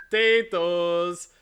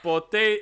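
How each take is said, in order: First: Potatoes said slow and loud in full, "poe-tay-toes"; slow corrected potatoes; corrected word. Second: Pota- clipped off short and loud, said as "poe-tay"; a loud false start on Pota-; botched word. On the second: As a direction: cut Pota- off mid-word. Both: Shown as a demonstration. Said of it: "sorry, not pota".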